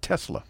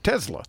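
First: The middle consonant sounds like s. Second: The middle consonant sounds like z.

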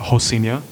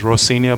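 First: The word begins with an H-like sound. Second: The word begins with an English R sound. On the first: "they pronounce the R as an H" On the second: "it's actually worded out as Rocinha"

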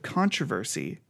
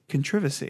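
First: It is said without a British accent. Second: It is said with a British accent.

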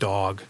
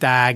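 First: The vowel is the speaker's usual one. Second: The vowel is open, like a New England accent.

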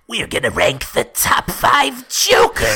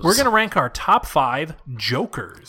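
First: It is said in a Joker voice. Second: It is said in his normal voice.

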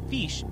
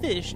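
First: The vowel is a long 'ee' sound. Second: The vowel is a short 'i' sound. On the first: The speaker calls it right. "it's fish, F-E-E-S-H" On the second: The speaker calls it wrong. "It's not fish"

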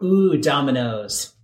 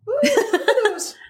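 First: It is said in a normal voice. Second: It is said in a put-on Abigail voice.

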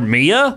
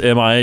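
First: It is said as a single two-syllable word. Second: It is spelled out as three separate letters. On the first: It sounds like a person's name. The speaker calls it wrong. "you said they're Mia" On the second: The person is missing in action. The speaker calls it right. "this person is MIA"

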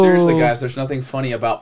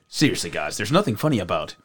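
First: It is read in the speaker's normal voice. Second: It is read in a put-on character voice.

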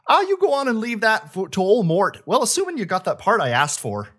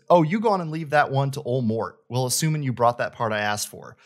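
First: It is said in a Minnesota accent. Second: It is read in a plain accent.

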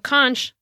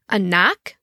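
First: The word does not end in a k sound. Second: The word ends in a k sound. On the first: "like we would say" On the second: "Like K-N-O-K would be like phonetically"

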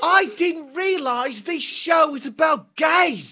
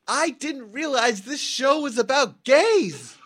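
First: It is said in an English accent. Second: It is said in the speaker's usual accent.

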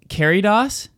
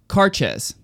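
First: The name sounds like 'Caridos'. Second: The name sounds like 'Carches'. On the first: The speaker calls it wrong. "We've been saying Caridos. That's totally wrong" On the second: The speaker calls it right. "Carches is how it's pronounced"

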